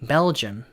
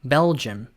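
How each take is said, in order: The two takes are said the same way.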